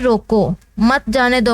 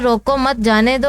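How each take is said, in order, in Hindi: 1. ठहराव 'roko' शब्द के बाद आता है। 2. ठहराव 'mat' शब्द के बाद आता है। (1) "रोको के बाद अगर ठहराव लगाते हैं, वक्फा" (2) "यहाँ पे हमने ठहराव दिया, वक्फा दिया"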